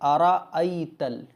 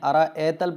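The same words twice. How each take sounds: First: The word is said with a careful recitation pronunciation. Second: The word is said with a careless, common pronunciation. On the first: The speaker calls it right. "बल्कि अरअयतल" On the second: The speaker calls it wrong. "इसमें लोग गलती ये करते हैं, अरअयतल पढ़ते हैं"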